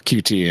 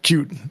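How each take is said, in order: First: The name is spelled out letter by letter. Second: The name is said as one word. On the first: "when I say, you know, Q T" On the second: "everybody like cute"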